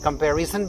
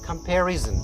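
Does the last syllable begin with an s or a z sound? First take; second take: s; z. First: The last syllable begins with an s sound. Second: The last syllable begins with a z sound. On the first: "जन की जगह हम सन" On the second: "जन का उच्चारण कर रहा है"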